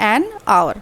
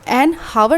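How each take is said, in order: First: The word hour starts with a vowel sound. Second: The word hour starts with an h sound. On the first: The speaker calls it right. "हम बोलते हैं an आवर" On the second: The speaker calls it wrong. "एन हावर नहीं बोलते"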